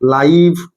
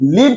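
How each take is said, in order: First: The vowel is long, like in 'eye'. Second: The vowel is short, like in 'it'. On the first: The speaker calls it right. "लाइव ही कहबी" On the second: The speaker calls it wrong. "मु लिव कहि परबिनी"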